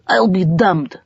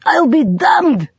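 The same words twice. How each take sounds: First: Muted disbelief. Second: Slow, high, louder "I'll be damned"; grudging admiration drawn out; amused disbelief. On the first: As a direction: say it to yourself. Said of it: "grudging admiration". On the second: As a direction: savour the surprise. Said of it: "he said again". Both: A narrator's reading.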